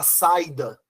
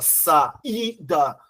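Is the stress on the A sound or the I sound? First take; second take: A sound; I sound. First: The stress falls on the A, gliding into I. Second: The stress falls on the separate I sound. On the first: The speaker calls it wrong. "Você não fala saída" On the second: The speaker calls it right. "você fala saída. O I é mais forte"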